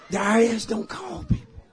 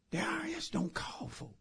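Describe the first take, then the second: First: Said in the usual way. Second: High, very soft near-whisper; hushed disbelief. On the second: Acted. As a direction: say it under your breath, incredulous. Pastor's hushed reply to the caller.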